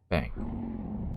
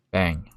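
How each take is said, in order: First: Bang said low and soft; deep quiet voice. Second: Said in the usual way. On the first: Shown as a demonstration. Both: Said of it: "repeats Bang deeper".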